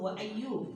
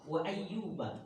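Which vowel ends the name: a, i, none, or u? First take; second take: none; a. First: The name ends with no final vowel. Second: The name ends with an 'a' vowel. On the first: "dengan sukun" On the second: "diawali dengan kata fathah"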